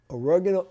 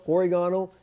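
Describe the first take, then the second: First: "oregano" as uh-REG-uh-no; alternate pronunciation. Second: "oregano" as or-ih-GAH-no; alternate pronunciation. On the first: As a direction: stress the second syllable of "oregano", REG. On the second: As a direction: stress the third syllable of "oregano", GAH. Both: Shown as a demonstration. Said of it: "however you pronounce it".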